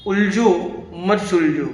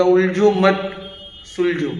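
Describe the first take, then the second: First: उलझो, a break, then मत सुलझो joined; उलझो set apart, मत grouped with सुलझो; pause before मत. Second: मत grouped with उलझो, सुलझो set apart; pause after मत. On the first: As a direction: put the comma right after उलझो. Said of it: "हम comma बदलते तो भी कितना". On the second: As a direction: put the comma right after मत. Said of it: "खाली comma के placement बदलने से". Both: Shown as a demonstration.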